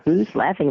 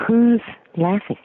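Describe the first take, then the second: First: Said in the usual way. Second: Puzzled call out. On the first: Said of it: "and I said". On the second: Retold or imitated. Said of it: "I said".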